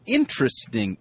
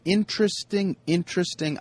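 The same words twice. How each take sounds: First: Said in the usual way. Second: High sing-song. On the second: Real, not acted. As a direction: pitch the word way up, pondering. Repeats word, pitch jumps up.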